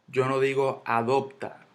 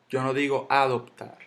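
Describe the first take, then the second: No difference in how they are said.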